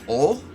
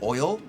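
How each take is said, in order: First: The vowel is a plain 'o', giving 'ol'. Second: The vowel glides as 'oy', giving 'oil'. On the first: "He pronounces it like ol, like O L" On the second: "he doesn't pronounce it like oil"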